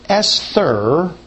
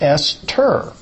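First: The middle consonant is a 'th' sound. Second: The middle consonant is a plain 't' sound. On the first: This reflects the Greek letter used in spelling. The speaker calls it wrong. "which is not the way we pronounce it" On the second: This matches the original Hebrew form. The speaker calls it right. "It's just T. And that's how we pronounce it"

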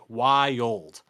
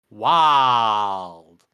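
First: The word is drawn out into two syllables. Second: The word is said as a single Southern syllable. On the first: "us three each pronounce as a two-syllable word" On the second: "if you pronounce it very much like you're from the South"

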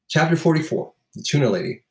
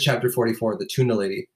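First: It is read in a dramatic, performed way. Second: It is read in a casual, conversational way.

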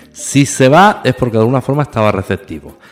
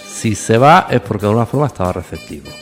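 The two takes are said the same way.

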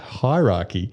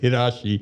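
First: The word ends with a clear 'key' sound. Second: The word ends with a 'shee' sound. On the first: This is the usual pronunciation. "that's the way he pronounces hierarchy" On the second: Someone else's accent is being imitated. "in his pronunciation, it was hirashi"

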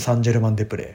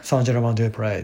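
First: It is said in Japanese pronunciation. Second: It is said in English pronunciation.

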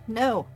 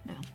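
First: It is said louder. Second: It is said at normal, quieter volume.

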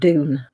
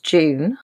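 First: The word begins with a plain 'd' sound. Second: The word begins with a soft 'j'-like sound. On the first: "I think you guys would say Dune" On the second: "I'm going to pronounce it the English way"

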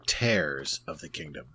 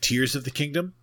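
First: Tears rhymes with airs. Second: Tears rhymes with ears. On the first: The kingdom is being torn apart. "or is the kingdom being torn apart?" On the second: The kingdom is crying. "Is the kingdom crying"

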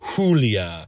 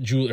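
First: The name starts with a throaty H sound. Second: The name starts with a hard J sound. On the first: The speaker calls it right. "like you're fucking Heimlicking" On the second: The speaker calls it wrong. "It's not Julia. Her name is not fucking Julia. Okay? You do not hit that hard J"

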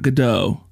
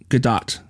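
First: The name is said in a French way. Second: The name is said in the Israeli way. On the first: The speaker calls it wrong. "It's not Godot. It's not French" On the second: The speaker calls it right. "It is Godot"

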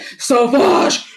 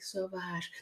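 First: The word is said in a dramatic, showy way. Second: The word is said in a plain, everyday way. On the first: An actor in a commercial is saying the name. "They're like" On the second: An ordinary person is saying the name. "they don't say it like you and I would like"

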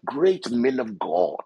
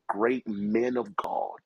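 First: It is said in a deliberately nice voice. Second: It is said in an ordinary, plain voice.

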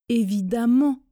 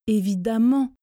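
The two takes are said the same way.

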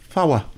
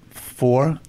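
First: The word is split into two syllables. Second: The word is said as one syllable.

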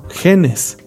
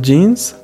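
First: The word has a Spanish pronunciation. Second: The word has an English pronunciation.

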